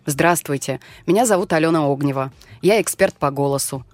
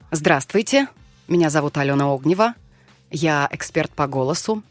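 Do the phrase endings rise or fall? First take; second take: fall; rise. First: The phrase endings fall in pitch. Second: The phrase endings rise in pitch.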